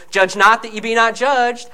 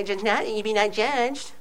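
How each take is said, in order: First: Said in the usual way. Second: Softer, mumbled mock of liberals; lightly mock the liberal reading, mushy and soft; a hint of a smug liberal. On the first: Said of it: "I'm telling you". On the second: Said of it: "the way the liberals say".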